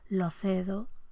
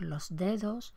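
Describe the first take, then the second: First: The s is weakened and the d turns voiceless. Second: The s is fully said and the d stays voiced.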